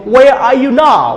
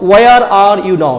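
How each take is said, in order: First: The r sounds are dropped. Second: The r sounds are clearly pronounced. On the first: "British people" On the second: "We speak, we pronounce it"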